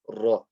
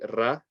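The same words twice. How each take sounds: First: The r sound is heavy and full. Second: The r sound is light and thin. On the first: The speaker calls it right. "You have to say ra" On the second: The speaker calls it wrong. "Ra is incorrect because you're not making it heavy"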